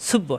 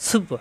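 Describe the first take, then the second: Both takes have the same delivery.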